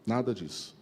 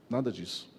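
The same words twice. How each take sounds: The two takes are said the same way.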